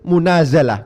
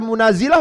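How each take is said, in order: First: The vowel after z is an a sound. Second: The vowel after z is an i sound. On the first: The speaker calls it right. "sama dengan itu. Munazalah" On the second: The speaker calls it wrong. "kalau udah dibaca munazilah boleh apa enggak? Ya tidak boleh"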